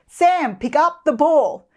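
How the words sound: The voice is harsh and loud. It makes the child feel threatened. The speaker calls it wrong. "If your tone is too harsh or loud"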